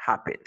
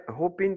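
First: "hopping" as "HAH-pin", short open first vowel. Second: "hopping" mispronounced as "hoping", with OH; wrong long O. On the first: Teacher showing how the double P is read, short O. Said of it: "sera H O P, tu dis hopping". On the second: Teacher showing what never to say, wrong long O. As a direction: stretch the first vowel of "hopping" into OH. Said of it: "Tu dis jamais hopping". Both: Shown as a demonstration.

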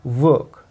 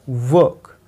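First: वर्क said with a silent r; वर्क, r dropped, long vowel; silent r work. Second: वर्क said with a rolled r; वर्क with the r sounded; wrong work. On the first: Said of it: "ये आर silent है". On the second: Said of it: "आपको इसको वर्क नहीं बोलना है". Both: Shown as a demonstration.

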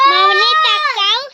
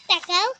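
First: Calling out. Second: Said in the usual way. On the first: Real, not acted. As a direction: call out to get her to look. Calling child to look at camera.

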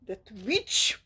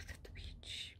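First: Sharp whispered outburst; whispered "That witch!" rising at the end; whispered exclamation. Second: Hissed whisper of contempt; whispered "That witch.". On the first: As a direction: whisper it with a bite. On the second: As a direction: breathe it out in a whisper. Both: Real, not acted.

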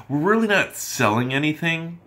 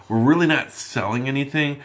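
The two takes are said the same way.

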